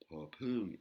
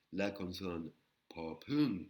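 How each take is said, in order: First: "popung" with an aspirated P, tone rising. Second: "popung" slow, P aspirated with a puff of air; slow aspirated Thai consonant name. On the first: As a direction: puff air on the P in "popung". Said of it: "une intonation qui monte". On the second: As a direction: breathe out on the P of "popung". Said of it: "un P avec un H inspiré". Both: Shown as a demonstration.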